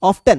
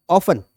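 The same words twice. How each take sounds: First: Often said as off-ten, t sounded. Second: Often said as off-en, no t; silent t. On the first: Teacher demonstrating the American way to students. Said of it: "American pronunciation क्या है?". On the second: Teacher showing class the usual way of saying it. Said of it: "for example". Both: Shown as a demonstration.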